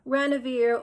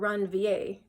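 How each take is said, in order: First: The name is said in a plain, everyday way. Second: The name is said in a fancy, showy way. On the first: "some people pronounce it" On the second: "if you want to be fancy"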